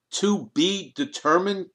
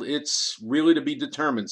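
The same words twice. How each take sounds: First: Higher, slow incredulous echo of "To be determined?"; blurted out. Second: Said in the usual way. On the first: A narrator's reading. Kriegel blurting disbelief at Sanchez's vague answer, higher and slow. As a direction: throw "determined" back in disbelief. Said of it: "Kriegel blurted out". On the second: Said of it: "said Sanchez with a shrug".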